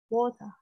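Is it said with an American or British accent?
British. It is said with a British accent.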